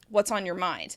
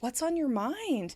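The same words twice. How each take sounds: First: The voice sounds annoyed and drops at the end. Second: The voice sounds concerned, warm and inviting. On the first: The speaker is not really open to hearing more. "you might be annoyed at the person... That drop in intonation" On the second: The listener is invited to share more details. "you're concerned, you're a little worried, and you're inviting them to share more details"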